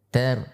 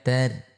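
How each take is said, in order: Both takes have the same delivery.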